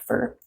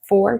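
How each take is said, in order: First: The word is said in a reduced form. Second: The word is said in its full form. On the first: "in connected speech" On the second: "so for turns into"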